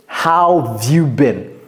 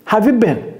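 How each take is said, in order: First: Said in full, with 'how' at the start. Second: Reduced, with 'how' left out at the start.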